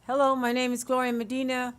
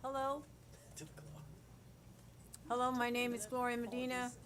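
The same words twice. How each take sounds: First: Said in the usual way. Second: Far off from the microphone, barely picked up; faint, mic not on. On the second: Real, not acted. Speaker at council podium before mic is on, faint and distant. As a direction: speak away from a dead mic. Mic off, she starts again.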